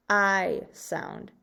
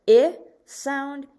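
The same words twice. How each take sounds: First: "I" pronounced eye before "sound"; long I sound. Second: "I" pronounced ih, set off before "sound"; short I sound. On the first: Teacher contrasts kite with kit, "I" as long eye. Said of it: "and in kite". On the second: Teacher contrasts kit with kite, "I" as short ih. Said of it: "So in kit". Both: Shown as a demonstration.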